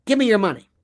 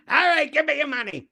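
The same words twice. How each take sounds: First: Said in the usual way. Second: High-pitched attempt at a British accent; muddled British accent. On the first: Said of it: "you say". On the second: Blind drunk robber demanding money, in a muddled British accent. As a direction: put on a dodgy, exaggerated British robber accent. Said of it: "I don't know what that accent is".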